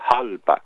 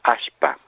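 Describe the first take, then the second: First: It starts with a breathy h sound. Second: It has a sh sound instead of l. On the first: "En Bolivia dicen halpa, una especie de J o H aspirada" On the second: "en Santiago del Estero dicen ashpa"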